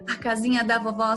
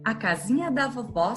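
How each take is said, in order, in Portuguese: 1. Ela é recitada em velocidade muito rápida. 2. Ela é recitada em velocidade rápida. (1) "Será que a gente consegue fazer mais rápido ainda?" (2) "mais rapidinho"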